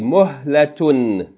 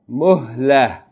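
First: The word ends with a t-sound and -un. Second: The word ends in a with no t-sound. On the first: The reading continues on without stopping. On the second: The reader stops on this word.

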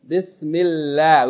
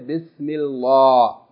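First: The L sound is light and thin. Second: The L sound is heavy and full-mouthed. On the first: The speaker calls it right. "Because the meme has kathra before the word Allah, we say bismi, bismillah" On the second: The speaker calls it wrong. "We don't say bismillah"

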